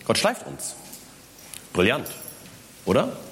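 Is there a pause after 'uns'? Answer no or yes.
yes. There is a pause after 'uns'. God polishes us, and that is brilliant. "Gott schleift uns, Komma, brillant, Komma, oder"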